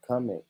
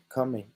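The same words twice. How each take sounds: The two takes are said the same way.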